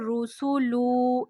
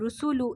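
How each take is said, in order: First: The final vowel is drawn out long. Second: The final vowel is short and quick. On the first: The speaker calls it wrong. "इस तरीके से बिल्कुल नहीं पढ़ना है, ये गलत हो जाएगा" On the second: The speaker calls it right. "रुसुलु इस तरीके से पढ़ना है"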